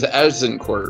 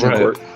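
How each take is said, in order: First: The middle consonant is a z sound. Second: The middle consonant is a j sound. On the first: This is the original French form of the name. "to the French, it was Azincourt" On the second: This is the form English speakers used. "the English couldn't pronounce the Z, so they said"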